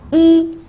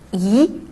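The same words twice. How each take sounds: First: The syllable is said in a high level tone. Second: The syllable is said in a rising tone. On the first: The word stands alone or forms a number. "il se prononce au premier ton" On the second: The word comes before a fourth-tone syllable. "i se lit au deuxième ton"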